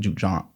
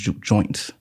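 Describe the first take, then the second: First: It is said with a southern accent. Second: It is said with a northern accent. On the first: "like with a southern accent" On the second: "that northern pronunciation versus that southern pronunciation"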